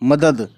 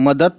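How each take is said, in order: First: The word ends with a d sound. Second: The word ends with a t sound. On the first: The speaker calls it right. "त नहीं है, द है" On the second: The speaker calls it wrong. "बहुत से लोग मदद बोलते हैं, लेकिन मदद कोई वर्ड नहीं है"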